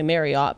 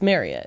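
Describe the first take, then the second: First: The name does not rhyme with chariot. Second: The name rhymes with chariot. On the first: The speaker calls it wrong. "They all say Marriott" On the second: The speaker calls it right. "he said it's like chariot"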